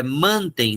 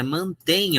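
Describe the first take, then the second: First: Mantem with stress on "man"; wrong stress mantem. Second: Mantém stressed on the final "tém"; correct stress mantém. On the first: Teacher showing the wrong way: stress on "man". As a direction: stress the first syllable: MAN-tem. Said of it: "não, é mantém". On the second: Teacher showing the right form: stress on "tém". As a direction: push the stress to the end: man-TÉM. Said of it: "mudou a tônica". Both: Shown as a demonstration.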